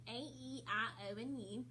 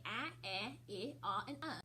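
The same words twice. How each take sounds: First: "A, E, I, O, and U" said as their letter names; long vowel sounds. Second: "a, e, I, ah, and uh" as short vowels, not letter names; short vowel sounds. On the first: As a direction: say each of "A, E, I, O, and U" as its long sound, like its name. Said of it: "long sounds say their name". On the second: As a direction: say "a, e, I, ah, and uh" as in cat, bed, sit, hot, cup. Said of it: "their short sounds do not say their name". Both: Shown as a demonstration.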